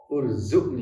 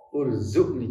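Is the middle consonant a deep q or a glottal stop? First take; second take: glottal stop; glottal stop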